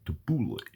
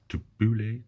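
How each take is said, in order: First: Tabbouleh with a playful New York twang; New York accent. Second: Said in the usual way. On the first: Pretend. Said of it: "say that in a New York accent". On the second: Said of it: "I always have to say that".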